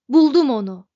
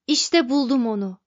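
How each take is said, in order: First: Bang the console and roar it out; triumphant shout. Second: Eager cry, a little louder; exclaiming. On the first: Zaphod shouts, fist on console. (zaferle bağırarak) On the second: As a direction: announce the discovery with glee. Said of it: "diye haykırdı Zaphod". (sevinçle haykırarak) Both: A narrator's reading.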